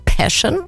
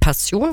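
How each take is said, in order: First: The word is pronounced the English way. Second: The word is pronounced the German way. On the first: The speaker calls it right. "sondern Passion" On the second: The speaker calls it wrong. "englisch ausgesprochen nicht Passion"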